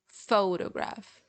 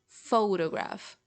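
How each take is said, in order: First: The stress is on the first syllable. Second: The stress is on the first syllable.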